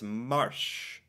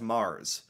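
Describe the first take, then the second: First: It is pronounced as the Norwegian word would be. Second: It is pronounced as the English word would be. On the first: "In Norwegian, it's Marsh" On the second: "In English, that's Mars"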